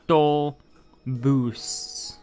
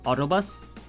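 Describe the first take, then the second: First: It is said with Spanish vowels, starting with ow. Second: It is said with English vowel sounds. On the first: "in Spanish, it's au, autobus" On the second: "In English, we call it an autobus because that's how it's spelled for us: auto and bus"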